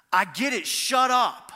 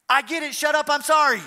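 First: Re-enacted loud snap, rising on the last words; loud, exasperated mock outburst; retold angry outburst. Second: High, loud mock yell running straight into apology; hammed-up high-pitched shout, apology just as loud; retold outburst turned instant apology. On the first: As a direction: act out losing your temper in an argument. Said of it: "this is how I reacted". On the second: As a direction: blurt it loudly and apologize in the same breath. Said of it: "this is the way it sounded".

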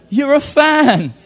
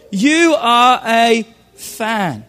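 First: "You're a fan" slow, with weight on "a"; slow emphatic stress. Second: "You are a fan" very slow, with "you" leaned on; very slow stress on you. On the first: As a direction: lean slowly into "a" in "You're a fan". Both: Shown as a demonstration.

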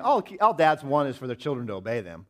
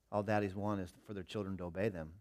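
First: Louder, insistent inner thought; a touch of emphatic. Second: Put-on softer, tender words to a child; gentle explanation. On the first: Retold or imitated. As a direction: drive the point home to yourself. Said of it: "That's what I was thinking in my mind". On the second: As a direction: explain it kindly to your son. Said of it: "I said".

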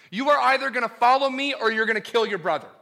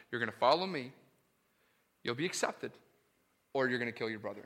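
First: Raised and louder, pressing the choice; urgent pulpit challenge; forceful preaching. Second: Hushed restatement. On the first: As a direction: hammer the either-or home. God's choice to Cain, preached. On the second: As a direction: lower and much softer, grave. Same choice, repeated softly. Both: Acted.

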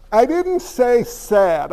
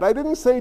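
First: "didn't" leaned on, slow and deliberate; stress on didn't. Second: Said in the usual way. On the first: Shown as a demonstration. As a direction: hit "didn't" hard and slow.

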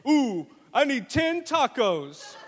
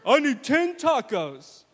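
First: Slow, loud, higher greedy voice; hamming up dad's hunger; hungry dad. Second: Slow, loud, higher demand; mock hungry pastor; hungry dad. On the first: Retold or imitated. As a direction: moan for tacos, slowly. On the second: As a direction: drag out the taco request. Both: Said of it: "He said".

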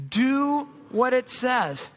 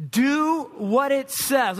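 First: Slow, measured second reading of "Do what it says"; slow repeated reading. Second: Slow, weighty, each word given stress on "Do what it says"; slow emphatic reading. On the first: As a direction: read "Do what it says" again, deliberately. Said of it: "Let's read that again". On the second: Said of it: "Read that with me". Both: Shown as a demonstration.

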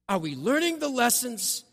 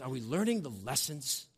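First: "learning" pressed higher and falling firmly; emphatic repeat. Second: Said in the usual way. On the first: Shown as a demonstration. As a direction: hammer home "learning" as a challenge.

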